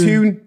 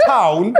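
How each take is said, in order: First: "tune" with a long, drawn-out oo vowel; Geordie "tune" for town. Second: Said in the usual way. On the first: Shown as a demonstration. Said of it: "it says a town". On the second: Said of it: "it's a tune".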